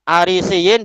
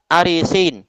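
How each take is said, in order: First: The word ends with a long 'siyin' sound. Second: The word ends with a short 'sin' sound. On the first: "Setelah sin itu ada dua ya" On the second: "biya'in wahidah ba'da sin"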